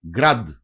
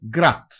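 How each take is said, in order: First: «Γκραντ» ending in a voiced d; written form. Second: «γκράτ» ending in a crisp voiceless t; usual pronunciation. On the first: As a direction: keep the final d voiced in «Γκραντ». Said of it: "Συνήθως προφέρεται γκράτ". («Γκραντ» με ηχηρό ντ στο τέλος) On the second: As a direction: devoice the final consonant of «γκράτ» to t. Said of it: "Συνήθως προφέρεται". («γκράτ» με άηχο τ στο τέλος) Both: Shown as a demonstration.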